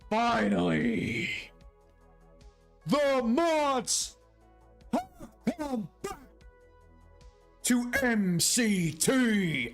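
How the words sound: It is read in a strained, imitated voice.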